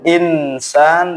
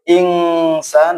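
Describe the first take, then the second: First: The n before s is pronounced clearly. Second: The n before s sounds like 'ng'. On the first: "Tidak boleh insan" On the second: "tidak boleh ingsan"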